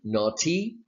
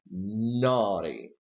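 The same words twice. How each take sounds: First: The stress is on the second syllable. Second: The stress is on the first syllable. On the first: The speaker calls it wrong. "Is this E to the right of T stressed? Do you say naughty? No" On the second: The speaker calls it right. "So the stress is here. Well, since the stress is not to the right of T"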